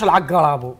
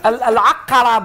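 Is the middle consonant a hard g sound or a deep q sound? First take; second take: g sound; q sound. First: The middle consonant is a hard g sound. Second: The middle consonant is a deep q sound. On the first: The speaker calls it wrong. "ما نقولش العقرب" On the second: The speaker calls it right. "العقرب نقول"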